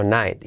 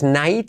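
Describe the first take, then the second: First: "night" as "naet", lighter and falling; softened ending. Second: "night" with a clear I and T, rising; mistaken vowel ending. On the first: Teacher correcting learners, "night" with a softened ending. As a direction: ease off the end of "night". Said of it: "sino night". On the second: Teacher showing the mistake, "night" over-pronounced as na-it. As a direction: sound "night" out as na-it. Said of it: "y no es night". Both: Shown as a demonstration.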